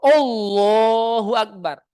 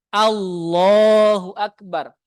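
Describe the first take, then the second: First: The first vowel is a rounded "o" sound. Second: The first vowel is an open "a" sound. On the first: The speaker calls it wrong. "Bukan O" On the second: The speaker calls it right. "Diawali dengan A"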